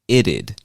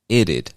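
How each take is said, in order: First: It is said as two syllables. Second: The same.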